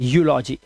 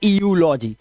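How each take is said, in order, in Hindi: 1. यह सीधे 'yoo' ध्वनि से शुरू होता है। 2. यह 'ee' की एक अलग ध्वनि से शुरू होता है। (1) "इट्स" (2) "ना कि"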